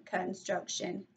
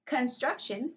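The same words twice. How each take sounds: First: "construction" slow, in three separate parts; syllable by syllable. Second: Said in the usual way. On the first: Shown as a demonstration. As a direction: clap out "construction", softer and slower. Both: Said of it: "three syllables".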